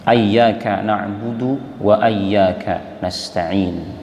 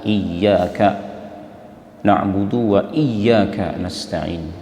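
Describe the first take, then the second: First: The first word begins with an a vowel. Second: The first word begins with an i vowel. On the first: "difatahkan. Fatah hamzah dan tasydid ya" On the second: "dikasrahkan hamzahnya dan ditasydidkan ya-nya"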